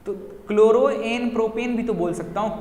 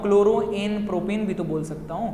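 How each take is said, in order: First: A lightly voiced puzzled student, rising at the end; half-acted student objection, voice pitched up; teacher mimicking a doubtful pupil asking about chloro; student's question. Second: Teacher re-voicing the pupil, toned down; student's question repeated. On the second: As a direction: repeat the objection more calmly. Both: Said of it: "एक doubt और आ सकता है आप लोगों को बच्चों".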